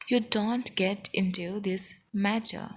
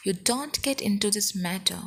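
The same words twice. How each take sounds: First: Careful word-by-word teaching pace; slow, evenly spaced demonstration; slow model repeat. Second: Said in the usual way. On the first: Shown as a demonstration. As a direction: spell the sentence out slowly for learners. Teacher repeats sentence slowly for learners.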